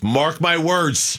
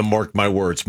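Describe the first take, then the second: First: Slow, drawn-out mock proclamation; mocking dramatic. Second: Said in the usual way. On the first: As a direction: spell out each word like a prophecy. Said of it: "Write this day down". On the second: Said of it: "amused by the".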